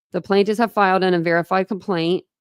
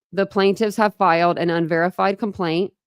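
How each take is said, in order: No difference in how they are said.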